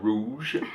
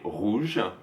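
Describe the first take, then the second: First: The R is said like an English R. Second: The R is said like a French R. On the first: The speaker calls it wrong. "la prononciation anglaise du R en français, ... c'est pas rouge" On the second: The speaker calls it right. "c'est rouge"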